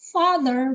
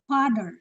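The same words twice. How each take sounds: First: The word begins with an F sound. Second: The word begins without an F sound.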